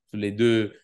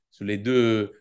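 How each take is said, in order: Both takes have the same delivery.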